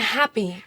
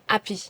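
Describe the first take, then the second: First: The word starts with a clear H sound. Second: The word starts without any H sound. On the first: "American happy" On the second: "becomes happy"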